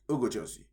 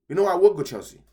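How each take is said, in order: First: Said in the usual way. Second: Sudden loud pick. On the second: Real, not acted. Sudden decision, louder take.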